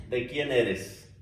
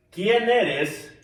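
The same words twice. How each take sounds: First: "¿De quién eres?" slow, stressing quién. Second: Said in the usual way. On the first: Shown as a demonstration. To the congregation, quién stressed. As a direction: press on quién to show whose you are.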